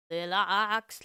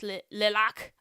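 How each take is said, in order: First: Saying "lacs" with a sounded final S; les lacs with S. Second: Saying "lacs" as "la", S dropped; retry "lacs" with silent S; les lacs without S. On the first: Struggling to drop the S in "lacs". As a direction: pronounce "lacs" ending in S. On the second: Correcting herself on "lacs", S silent. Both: Shown as a demonstration. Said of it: "I can't say the S".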